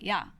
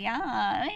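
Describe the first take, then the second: First: It sounds sharp and aggressive. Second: It sounds light and teasing. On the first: The speaker is challenging the other person. "that's you're you're confrontational, like off the bat" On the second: The speaker is joking around with a friend. "You could just say it like that, but that's again usually between friends"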